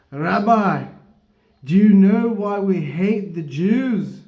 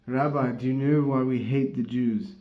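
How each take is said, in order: First: Loud, high, slow attempt at a Scottish accent; failed Scottish accent. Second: Toned-down attempt at a Scottish accent; failed Scottish accent. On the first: Big Scotsman challenging the rabbi, loud mock Scottish accent. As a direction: boom it out in a bad Scottish accent. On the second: Retelling the Scotsman's question to the rabbi, mild mock Scottish accent. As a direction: repeat it in a half-hearted Scottish accent. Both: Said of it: "a failed Scottish accent".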